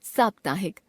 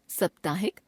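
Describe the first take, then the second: First: Said in the usual way. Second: साप्ताहिक with short first vowel, "saptahik" as "suptahik"; wrong pronunciation. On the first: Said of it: "शुद्ध". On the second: Shown as a demonstration. Teacher showing a common error, साप्ताहिक with short first vowel. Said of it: "अशुद्ध".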